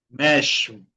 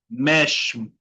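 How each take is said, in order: No difference in how they are said.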